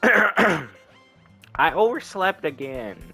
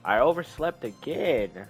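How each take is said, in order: First: It is said in a put-on girl's voice. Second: It is said in his normal voice.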